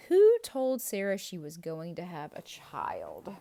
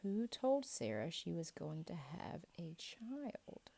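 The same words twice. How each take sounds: First: Asked out loud, projected; loud quiz question. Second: The question repeated in a whisper. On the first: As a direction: call the question out to the class. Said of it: "quiz question asked twice". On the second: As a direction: lean in and whisper it again. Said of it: "quiz question repeated softly". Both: Shown as a demonstration.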